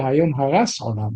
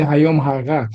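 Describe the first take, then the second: First: The middle word ends with an s sound. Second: The middle word ends with a t sound. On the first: The day the world was destroyed. The speaker calls it wrong. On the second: The day the world was conceived. The speaker calls it right. "You say היום הרת"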